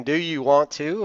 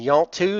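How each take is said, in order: First: Said in the usual way. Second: Quoted Southern contraction of "you want to"; Southern US accent. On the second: Shown as a demonstration. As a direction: run "you want to" together, Southern style. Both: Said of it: "is a Southern way of saying".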